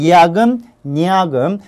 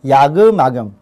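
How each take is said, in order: First: An n sound starts the second half. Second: The final m links into the second half. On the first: "니은을 첨가를 하게 되면" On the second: "연음을 하게 되면"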